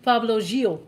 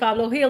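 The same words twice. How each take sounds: First: The name is said with a Brazilian accent. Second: The name is said without a Brazilian accent. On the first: "the winner is the Brazilian Pablo Gil" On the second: "I said Pablo Gil"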